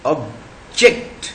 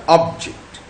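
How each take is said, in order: First: ऑब्जेक्ट with stress on the second syllable, -ject; ऑब्जेक्ट stressed at the end, as a verb. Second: ऑब्जेक्ट with stress on the first syllable, ob-; ऑब्जेक्ट stressed up front, as a noun. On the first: Teacher shows the class the verb ऑब्जेक्ट, stress on -ject. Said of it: "मगर यदि ये ऑब्जेक्ट हमारा verb के रूप में है". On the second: Teacher shows the class the noun ऑब्जेक्ट, stress on ob-. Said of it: "noun के रूप में बोलेंगे तो ये बनेगा". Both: Shown as a demonstration.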